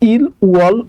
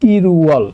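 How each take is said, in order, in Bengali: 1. L প্রথম শব্দাংশের শেষেই থাকে। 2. L দ্বিতীয় শব্দাংশের শুরুতে চলে যায়। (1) "আপনি ইল ওয়াল উচ্চারণ করতে পারবেন না" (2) "এটা উচ্চারণ হবে হচ্ছে ইরুয়াল"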